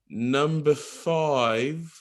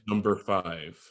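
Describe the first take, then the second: First: It is said in a British accent. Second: It is said in an American accent. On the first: "an English person, he would say like number five" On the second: "An American would, you know, say it as I'm saying it now"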